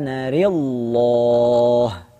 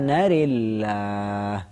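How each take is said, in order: First: The l in Allah sounds heavy and thick. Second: The l in Allah sounds light and thin. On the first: "boleh at-tafkhim" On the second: "boleh juga at-tarqiq"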